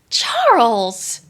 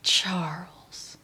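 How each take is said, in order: First: The name is said in a surprised tone. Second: The name is said in a disappointed tone. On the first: "Am I surprised?" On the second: "I don't know why my voice got"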